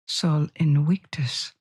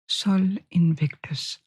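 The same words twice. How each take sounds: First: The name is said with classical Latin pronunciation. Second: The name is said with English pronunciation.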